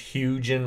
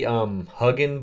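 First: The first syllable sounds like the word huge. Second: The first syllable does not sound like huge. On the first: "I would assume it's Hugen, like a huge photo" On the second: "It may be Hugen"

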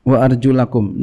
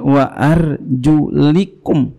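First: The vowel before -kum is an 'a' sound. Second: The vowel before -kum is an 'i' sound. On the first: The word is read in the accusative case. "dibaca nasab" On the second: The word is read in the genitive case. "dibaca jar, bisa juga jar bacanya"

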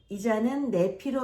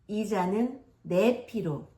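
First: The vowels are pronounced loosely and casually. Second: The vowels are pronounced clearly with a wide-open mouth. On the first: The meaning is still understood from context. The speaker calls it wrong. "보통 뭐 이렇게 되는 거죠" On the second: The reading sounds more refined and trustworthy. The speaker calls it right. "약간 좀 고급진 발음은 신뢰도가 높은 발음이죠"

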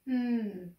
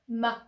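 First: The m sound is held without a vowel. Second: The m sound ends in a short vowel. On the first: The speaker calls it right. "but more of a mmm" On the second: The speaker calls it wrong. "it's important that they don't say ma"

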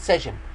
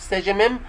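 First: The final m sound is pronounced once. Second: The final m sound is pronounced twice. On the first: The speaker calls it right. "هنقول سجم" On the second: The speaker calls it wrong. "مش هنقول سجمم"

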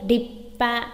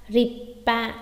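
Both takes have the same delivery.

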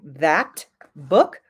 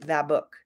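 First: The T at the end of 'that' is strong and fully released. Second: The T at the end of 'that' is soft and barely released. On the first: The speaker calls it wrong. "Instead of saying that book" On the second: The speaker calls it right. "we just make the T a lot softer and say that book"

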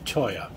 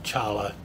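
First: The middle consonant is a 'y' sound. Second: The middle consonant is an 'l' sound. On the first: The speaker calls it right. "It's actually pronounced Choya" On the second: The speaker calls it wrong. "not Chala"

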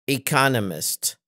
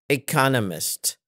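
Both takes have the same delivery.

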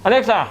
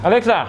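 No difference in how they are said.

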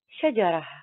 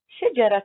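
First: The word ends in an h sound before a pause. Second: The word ends in a t sound, linked onward. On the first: "التاء المربوطة عند الوقف نطقت هاء" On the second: "وعند الوصل نطقت تاء"

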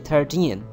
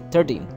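First: The final syllable is long and stressed. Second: The final syllable is short and unstressed. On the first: The speaker calls it right. "Just say 13" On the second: The speaker calls it wrong. "Don't say 13, 14. It sounds like 30"

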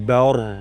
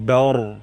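No difference in how they are said.

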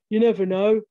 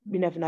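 First: It is said in a put-on regional accent. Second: It is said in the speaker's own accent. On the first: "I can say that without the accent" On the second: "I can say that without the accent"

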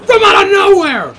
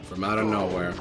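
First: It is screamed loudly with high energy. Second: It is said at a normal, calm volume. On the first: "because you do it better" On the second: "I thought you were gonna scream it"

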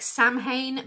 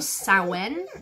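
First: The word is read the way it looks. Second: The word is not read the way it looks. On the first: The speaker calls it wrong. "I know it looks like Samhain, but I promise you it is not" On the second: The speaker calls it right. "But we say Samhain or Samhain"

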